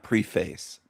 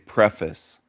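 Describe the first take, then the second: First: It is said the Southern way. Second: It is said the local, non-Southern way. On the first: The speaker calls it wrong. "not preface" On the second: The speaker calls it right. "Here we say preface"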